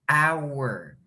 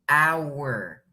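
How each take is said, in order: Both takes have the same delivery.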